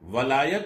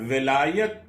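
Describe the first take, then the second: First: The first vowel is an 'a' sound. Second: The first vowel is an 'i' sound. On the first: It means love or affection. "अगर फतह और जबर के साथ पढ़ा जाए" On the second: It means guardianship or authority. "जेर के साथ अगर पढ़ा जाए"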